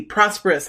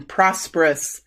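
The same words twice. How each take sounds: First: Said in the usual way. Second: Prosperous said slowly, each syllable PROS-per-ous clear, falling; slow it down, prosperous, to get it right; careful retry. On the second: Shown as a demonstration. Psychic retrying a word she kept tripping on, slow and careful. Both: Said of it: "I'm gonna say it again".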